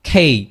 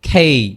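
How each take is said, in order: First: The k sound has a strong puff of air. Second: The k sound has a strong puff of air.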